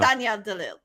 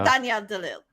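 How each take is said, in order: First: The surname is said with a French pronunciation. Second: The same.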